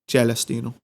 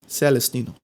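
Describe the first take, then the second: First: The name is pronounced with an Italian accent. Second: The name is pronounced with an English accent.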